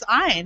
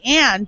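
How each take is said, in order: First: The name is said as 'Ayn'. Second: The name is said like the word 'Anne'. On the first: This is the name's proper form. "but it's Ayn" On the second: This is how the family says it. "we just pronounce it Anne"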